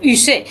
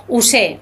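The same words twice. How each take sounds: First: "Ussé" with a French rounded front U; French-style Ussé. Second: "Ussé" with a Spanish U, like "usé"; Spanish-style Ussé. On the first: Guest offers the French alternative, "Ussé" with fronted U. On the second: Guest names the château, "Ussé" with a Spanish oo. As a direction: say "Ussé" with a plain oo vowel. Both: Shown as a demonstration. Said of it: "o Ussé".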